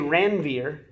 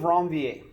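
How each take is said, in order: First: The name is pronounced with English-style sounds. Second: The name is pronounced with French-style sounds. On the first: The speaker calls it wrong. "Some people will say Ranvier" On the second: The speaker calls it right. "he's a French guy"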